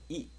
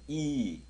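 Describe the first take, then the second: First: The vowel is said short. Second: The vowel is held long. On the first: "이 발음 있으면 이 이렇게 발음을 해줄 때" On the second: "땡땡이 붙으면 이"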